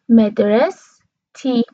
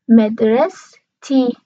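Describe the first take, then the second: No difference in how they are said.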